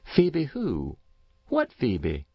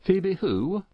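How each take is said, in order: First: Puzzled neighbour, high start falling away; lightly voiced curious old woman; curious country woman. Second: High, rising farmer's question; lightly voiced puzzled farmer. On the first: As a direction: ask it lightly baffled, starting high and dropping. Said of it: "replied Missus Race, curious". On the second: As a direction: ask it lightly baffled, pitched up at the end. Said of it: "inquired Farmer Dodge, not for the moment connecting the name". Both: A narrator's reading.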